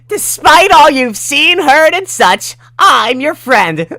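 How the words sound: It is said loudly in a character voice.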